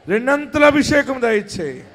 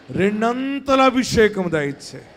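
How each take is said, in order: First: Lifted, loud plea for అభిషేకం; louder cry. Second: Said in the usual way. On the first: Shown as a demonstration. Pastor urging the church to pray loudly, crying out. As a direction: cry it out to the Lord. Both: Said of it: "గట్టిగా ప్రార్థన చేయండి".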